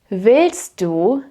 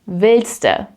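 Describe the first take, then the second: First: The two words are said separately in full. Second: The two words merge into one word.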